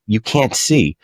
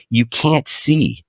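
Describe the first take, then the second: First: Said in the usual way. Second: Slow, higher, leaning on can't; slow emphasis. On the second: Shown as a demonstration. Host stressing the point to listeners, slow and emphatic. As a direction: draw out You can't see with weight.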